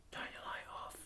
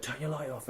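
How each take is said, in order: First: Breathy unvoiced whisper of an order. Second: Softly voiced, held down but not whispered; quiet. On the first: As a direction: hiss it under your breath, no voice at all. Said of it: "we're whisper". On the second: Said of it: "but really quiet".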